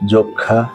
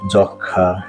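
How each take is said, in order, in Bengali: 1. প্রথম স্বরধ্বনিটি সংবৃত, 'o'-এর মতো। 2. প্রথম স্বরধ্বনিটি বিবৃত, 'aw'-এর মতো। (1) "সঠিক উচ্চারণ এখন আমি করছি" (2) "এভাবে বলে থাকি, কিন্তু এই উচ্চারণটি সম্পূর্ণরূপে ভুল"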